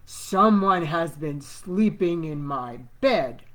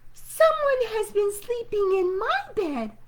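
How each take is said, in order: First: It is said in a great big voice. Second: It is said in a wee small voice.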